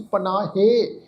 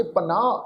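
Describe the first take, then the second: First: ਪਨਾਹੇ with an added -he syllable; wrong sounded ending. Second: ਪਨਾਹ ending on an open long aa; silent ਸਿਹਾਰੀ. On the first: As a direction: pronounce the last h of ਪਨਾਹੇ as 'he'. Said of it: "ਇਸ ਢੰਗ ਨਾਲ ਨਹੀਂ ਕਰਨਾ". ('ਪਨਾਹੇ', ਅੰਤ ਵਿੱਚ 'ਹੇ' ਬੋਲ ਕੇ) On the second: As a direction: say ਪਨਾਹ as 'panaa', no 'he'. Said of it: "ਇਸ ਸ਼ਬਦ ਦਾ ਉਚਾਰਨ ਕਰਾਂਗੇ". ('ਪਨਾਹ', ਅੰਤ ਵਿੱਚ 'ਹੇ' ਤੋਂ ਬਿਨਾਂ) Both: Shown as a demonstration.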